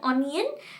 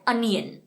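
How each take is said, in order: First: The first vowel is a rounded 'o' sound. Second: The first vowel is an open 'uh' sound. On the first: The speaker calls it wrong. "गलत" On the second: The speaker calls it right. "इसका correct pronunciation है अनियन"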